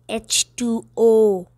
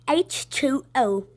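First: It is said in the speaker's ordinary accent. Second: It is said in a put-on British accent.

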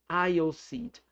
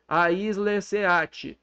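First: The first word has no extra consonant sound. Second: The first word has an extra consonant sound. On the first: The speaker calls it right. "Não faltou letra nenhuma" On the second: The speaker calls it wrong. "vai querer ler aisle"

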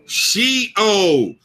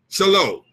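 First: The word is said like shee-ole. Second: The word is said like shy-low. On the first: The speaker calls it right. "make sure I say this word right" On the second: The speaker calls it wrong. "I ain't saying that right"

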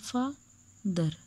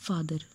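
First: The word is split into separate syllables. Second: The word is said smoothly as one unit. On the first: The word is being broken into syllables. "जब आप सलेबल करेंगे word के उस time आपने अलग अलग word को पढ़ना है" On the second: The word is being read normally. "जब रीडिंग करेंगे तब आप पढ़ेंगे फादर"

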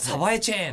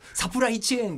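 First: The middle syllables are slurred together. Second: Every syllable is pronounced clearly and fully. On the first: The speaker calls it wrong. "サバエチェーンって言って" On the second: The speaker calls it right. "サプライチェーンっていう風に言わなきゃいけない"

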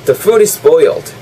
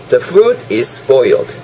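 First: It is said a bit faster. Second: It is said at a normal speed.

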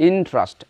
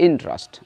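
Both takes have the same delivery.

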